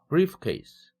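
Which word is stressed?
brief. The stress falls on the first word, brief. It means a bag for documents. "서류 가방을 얘기하는데"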